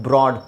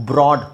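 No difference in how they are said.

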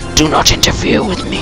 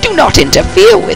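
First: It is said in a deep voice. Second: It is said in a normal voice.

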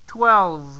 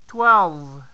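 Both takes have the same delivery.

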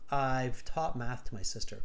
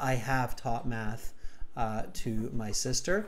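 First: I have is contracted into one syllable. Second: I have is said in full with emphasis. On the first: The speaker calls it wrong. "So you contracted the I have" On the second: The speaker calls it right. "actually say I have, like emphasize it"

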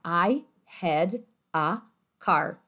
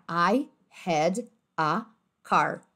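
First: Each word is said separately with small pauses. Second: Each word is said separately with small pauses.

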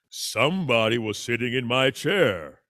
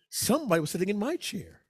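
First: It is said in Papa Bear's voice. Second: It is said in Mama Bear's voice.

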